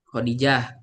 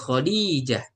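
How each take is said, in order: First: The middle vowel is said short. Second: The middle vowel is said long. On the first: "Kalau kita kan Khadijah" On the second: "panjang di intonasi ya-nya"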